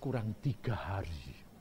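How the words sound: It is said in a relaxed, unhurried tone. There is still plenty of time.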